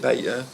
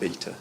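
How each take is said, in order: First: It is said the American way, 'bay-ta'. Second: It is said the British way, 'bee-ta'.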